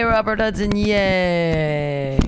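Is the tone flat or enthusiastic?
flat. It is said flatly, without enthusiasm.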